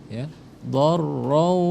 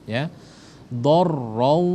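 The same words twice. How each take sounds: The two takes are said the same way.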